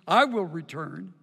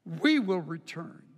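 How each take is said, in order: First: "I" hit hard, singular pronoun up front; stress on I. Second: "We" punched, plural pronoun stressed. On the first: Preacher reading the Hebrew, stressing "I". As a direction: lean on "I" as one man returning alone. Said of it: "Instead of Ashua, Ashua would be". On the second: Preacher contrasting the Hebrew, punching "We". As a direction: land on "We" to show both return. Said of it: "It says Nashua". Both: Shown as a demonstration.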